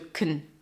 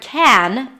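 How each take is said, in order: First: The vowel is reduced and weak. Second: The vowel is full and clear. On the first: "is usually reduced to" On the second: "the word can, the positive form"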